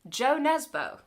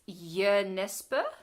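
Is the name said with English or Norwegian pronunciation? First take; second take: English; Norwegian. First: The name is pronounced with English sounds. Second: The name is pronounced with Norwegian sounds. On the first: This is how an English reader would guess it. The speaker calls it wrong. "if you are also English like me, um, may look at this name and go" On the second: This is the name's actual pronunciation. The speaker calls it right. "but it's"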